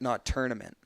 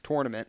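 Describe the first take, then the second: First: The first syllable sounds like 'ter'. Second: The first syllable sounds like 'tour'. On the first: The speaker calls it wrong. "because you're you're not pronouncing the O" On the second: The speaker calls it right. "I say it the right way, tournament, because there is an O U R"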